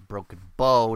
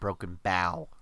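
First: The word bow rhymes with go. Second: The word bow rhymes with cow. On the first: The speaker calls it right. "it is Broken Bow" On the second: The speaker calls it wrong. "not Broken Bow. ... bow on ship"

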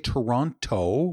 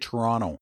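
First: The second t sound is clearly pronounced. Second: The second t sound is dropped. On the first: "We don't say Toronto" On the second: "We say Toronto. I don't know where the T went"

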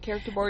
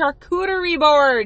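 First: The first word sounds like 'character'. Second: The first word sounds like 'shar-KOO-tuh-ree'. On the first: The speaker calls it wrong. "It's not a character board" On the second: The speaker calls it right. "It's a charcuterie board"

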